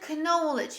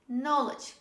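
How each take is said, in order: First: The K at the start is pronounced. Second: The K at the start is silent. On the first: The speaker calls it wrong. "We don't say knowledge" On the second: The speaker calls it right. "We say knowledge"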